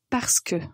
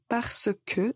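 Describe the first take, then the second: First: It is said quickly, run together as one word. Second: It is said slowly as two separate words. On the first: "quand on le prononce plus vite" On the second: "ce sont deux mots"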